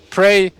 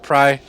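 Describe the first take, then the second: First: The vowel rhymes with 'day'. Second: The vowel rhymes with 'eye'. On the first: The speaker calls it wrong. "I keep calling him Prey because Prey sounds cool to me" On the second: The speaker calls it right. "Pry, I guess, is the actual correct pronunciation"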